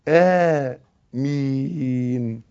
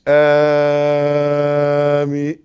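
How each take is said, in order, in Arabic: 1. الحركة الأولى تُمَدّ حركتين بالضبط. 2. الحركة الأولى لا تُمَدّ حركتين. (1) "حركتين" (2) "مش آمين"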